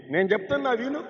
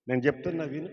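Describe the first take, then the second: First: "చెప్తున్నా" lifted high and loud; emphatic call. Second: Said in the usual way. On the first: Shown as a demonstration. Pastor urging the woman to listen, higher and louder.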